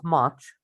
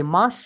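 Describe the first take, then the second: First: Said in the usual way. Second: Mush, with sh in place of ch; learner's mistake mush for much, sh ending; mispronounced "much". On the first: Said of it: "instead of much, you say mush". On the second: Shown as a demonstration. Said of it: "this is a mistake".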